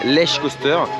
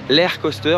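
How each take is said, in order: First: The name is said with a French-style pronunciation. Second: The name is said with a Polish-style pronunciation. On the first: "en français, ça s'appelle Lech Coaster" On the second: "c'est la prononciation euh, polonaise, on va dire approximative"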